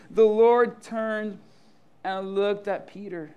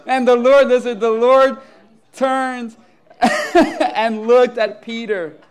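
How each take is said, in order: First: "The Lord turned" slow and louder, then easing down; emphatic rereading. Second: Loud reading broken up by laughter; real laughing. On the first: Shown as a demonstration. Preacher has listeners notice the verse, slow and emphatic. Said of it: "notice this". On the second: Real, not acted. Preacher resumes scripture after rooster surprise, laughing. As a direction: push on with the reading through laughter.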